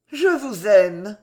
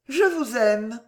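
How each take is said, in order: First: Slow, loud, confident confession; assured declaration. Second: Higher voice, sincere and unadorned; simple declaration. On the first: Woman confessing her love a second time, assured. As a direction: repeat it with assurance, unhurried and firm. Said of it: "D'une voix plus assurée". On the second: Woman daring to confess her love, very simply. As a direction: say it simply, as plain truth. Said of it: "Et très simplement". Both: A narrator's reading.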